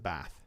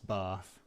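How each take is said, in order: First: The vowel in bath is short. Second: The vowel in bath is long. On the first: This is not how the speaker normally says it. "I don't pronounce it Bath" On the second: This is how the speaker normally says it. "I'm definitely a long... A long A"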